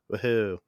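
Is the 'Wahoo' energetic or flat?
flat. It is said flatly, with little energy.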